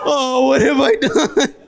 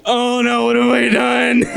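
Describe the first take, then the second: First: Slow, high, laughing mock despair; slow, high wail of mock remorse; drawn-out mock horror. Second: High, hammed-up horror through a laugh; a kid's overplayed gasp of guilt, laughing; laughing, high mock panic. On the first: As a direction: stretch out the fake guilt, laughing.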